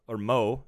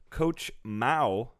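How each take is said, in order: First: The vowel sounds like the one in 'go'. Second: The vowel sounds like the one in 'cow'. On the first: "No, it's Mo" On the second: "Like Chairman Mao?"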